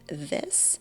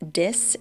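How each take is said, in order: First: The word begins with a th sound. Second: The word begins with a d sound. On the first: It is the target pronunciation. The speaker calls it right. "instead of this" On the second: A child struggling with the sound said it. The speaker calls it wrong. "he often says dis"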